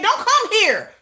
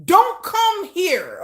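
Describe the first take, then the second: First: Higher, quick flat brush-off; blunt dismissal. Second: Very slow, every word spaced and leaned on; slow emphatic. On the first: Telling fans abroad to stay away, brushing them off. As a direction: toss it off fast. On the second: Telling fans abroad to stay away, each word slowed for emphasis. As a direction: spell it out word by word. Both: Retold or imitated. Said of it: "I'm like".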